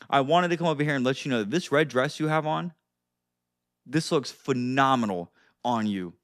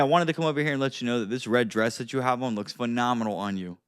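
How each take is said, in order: First: There is a pause before the compliment. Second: It flows without a pause before the compliment.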